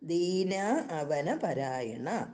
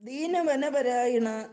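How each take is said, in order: First: The two words are kept separate. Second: The two words are merged into one. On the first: The speaker calls it right. "എന്നതാണ് ശരി" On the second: The speaker calls it wrong. "എന്ന് പറയുന്നത് തെറ്റാണ്"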